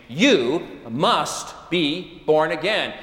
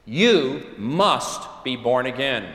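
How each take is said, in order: First: Each word weighed, slowed right down; 'You must be born again' laid out slowly; slow emphatic quote. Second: 'You must be born again' spoken slowly to the listeners; slow emphatic delivery. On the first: Jesus's words, slowed for weight. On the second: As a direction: press 'You', then let the rest fall. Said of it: "including you and me". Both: Shown as a demonstration.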